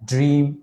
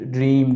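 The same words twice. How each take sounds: First: The d sounds like an English voiced d. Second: The d sounds like the Bengali d. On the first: The speaker calls it right. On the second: The speaker calls it wrong.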